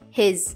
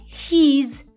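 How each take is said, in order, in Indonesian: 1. Vokalnya i pendek, mendekati e. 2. Vokalnya panjang, bukan i pendek. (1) "Dengan simbol I pendek yang dibaca mendekati huruf E" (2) "bukan his"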